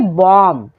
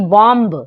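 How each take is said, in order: First: The final b is silent. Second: The final b is sounded. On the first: The speaker calls it right. "यहाँ पे बी हो जाएगा silent. तो क्या पढ़ेंगे?" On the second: The speaker calls it wrong. "ना कि"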